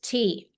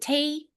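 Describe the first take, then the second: First: It is said in a neutral broadcast accent. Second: It is said in a Southern US accent. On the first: The speaker calls it right. "it's just tea" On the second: The speaker calls it wrong. "It isn't tea"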